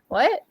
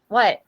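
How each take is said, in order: First: It is said in a mild, neutral tone. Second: It is said in a harsh, rude tone. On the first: The listener is simply asking to hear it again. The speaker calls it right. "That's not rude" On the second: The listener is being dismissed impolitely. The speaker calls it wrong. "If your tone is rude, like what? That's rude"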